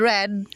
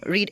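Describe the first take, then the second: First: "read" said with a short e, like red; past-tense read. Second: "read" said with a long ee, like reed; present-tense read. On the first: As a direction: say "read" to rhyme with bed. ("read" na may maikling tunog na e, parang "red") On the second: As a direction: say "read" to rhyme with need. ("read" na may mahabang tunog na i, parang "rid") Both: Shown as a demonstration. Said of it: "pero iba pag-pronounce".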